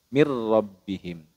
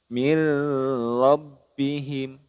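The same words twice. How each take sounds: First: The sounds merge with no nasal hum. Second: A nasal hum is added before the r. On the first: The speaker calls it right. "tidak boleh didengungkan ... hanya leburkan saja" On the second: The speaker calls it wrong. "itu kurang tepat ... malah yang ini yang didengungkan"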